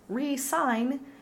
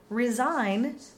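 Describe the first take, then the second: First: The first vowel is a long, stressed ee. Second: The first vowel is a short, open i. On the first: To write a signature again. "re-sign means to write your signature again" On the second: To quit something. "Resign means to quit something"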